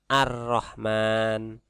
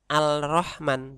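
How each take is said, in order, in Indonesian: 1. L pada artikel melebur menjadi R yang digandakan. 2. L pada artikel dilafalkan sebelum R. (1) "tapi ar-Rahman" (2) "dibacanya bukan al-Rahman"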